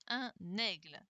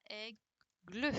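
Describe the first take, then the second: First: Said in the usual way. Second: "aigle" broken in two, "ai... gle"; split into syllables. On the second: Shown as a demonstration. Teacher filling in boxes for pupils, "aigle" split in syllables. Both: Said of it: "c'était la deuxième syllabe".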